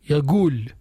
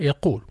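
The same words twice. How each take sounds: First: The middle consonant is a g sound. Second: The middle consonant is a deep q sound. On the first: This is a regional dialect pronunciation. The speaker calls it wrong. "قاف they pronounce as a غا" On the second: This is the classical pronunciation. The speaker calls it right. "But it should be pronounced قالا يقول"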